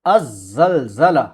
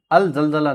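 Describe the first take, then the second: First: अज़्ज़लज़ला slow and careful, the l of अल merged into a doubled "zz": az-zalzala; correct Arabic pronunciation. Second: अल ज़लज़ला with the "l" of अल fully sounded: al zalzala; wrong pronunciation. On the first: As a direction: drag out the double z in अज़्ज़लज़ला like a teacher. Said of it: "अल ज़लज़ला नहीं होगा". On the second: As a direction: read अल ज़लज़ला letter by letter, keeping the l. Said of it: "नहीं होगा". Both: Shown as a demonstration.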